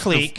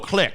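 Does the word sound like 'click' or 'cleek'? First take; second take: cleek; click. First: The word is said like 'cleek'. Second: The word is said like 'click'. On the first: The speaker calls it right. "it's pronounced clique. That's the proper pronunciation" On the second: The speaker calls it wrong. "They look at the word and they're like, "Oh, click.""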